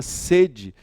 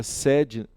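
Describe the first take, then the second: First: "sede" said with a closed e, like "sêde". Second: "sede" said with an open e, like "séde". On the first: Teacher contrasting two spellings, closed e in "sede". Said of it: "a palavra sede tinha acento". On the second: Teacher contrasting two spellings, open e in "sede". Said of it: "e a palavra sede". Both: Shown as a demonstration.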